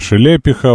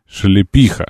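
First: The stress is not on the third syllable. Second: The stress is on the third syllable. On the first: The speaker calls it wrong. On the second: The speaker calls it right.

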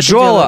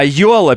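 First: The name begins with a 'dzh' sound. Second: The name begins with a 'y' sound. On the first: The speaker calls it wrong. "Не Джола" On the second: The speaker calls it right. "а Йола, пишет Орион"

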